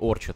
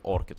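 First: The word is said with a ch sound. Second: The word is said with a k sound. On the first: "Как правильно говорить, оркит или орчит?" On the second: "Правильно все-таки оркит говорить"

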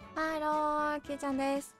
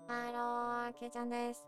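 First: The voice sounds natural and unprocessed. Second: The voice is processed to sound like a robot. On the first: "通常、これです。" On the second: "ロボットかわいい。"

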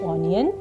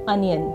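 First: The word starts with an 'oh' vowel. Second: The word starts with an 'uh' vowel. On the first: The speaker calls it wrong. "इसको गलत बोला जा सकता है" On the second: The speaker calls it right. "इसको सही से बोलने का तरीका है"

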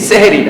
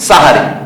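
First: The word begins with 'seh' and has two syllables. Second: The word begins with 'sa' and has three syllables. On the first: The speaker calls it wrong. "কিন্তু আমরা বলি সেহরি। সেহরি না" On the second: The speaker calls it right. "শব্দটা হলো সাহারি"

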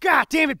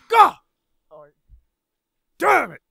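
First: It is read out flatly, without acting. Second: It is shouted with acted energy.

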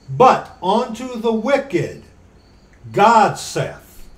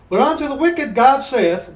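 First: It is read very slowly. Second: It is read at normal speed.

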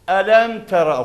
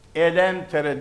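First: The final vowel is an open, back a. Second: The final vowel is a thinner, front e. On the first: The speaker calls it right. "elem tera okuyoruz" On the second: The speaker calls it wrong. "Elem tere değil"

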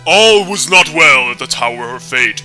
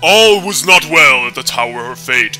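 First: It is read in a dramatic storyteller voice. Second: The same.

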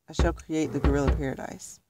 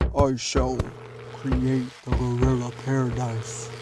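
First: It is read in a plain, ordinary voice. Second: It is read in an intimidating, menacing voice.

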